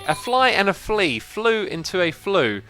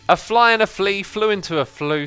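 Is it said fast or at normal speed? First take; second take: normal speed; fast. First: It is said at a normal speed. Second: It is said fast.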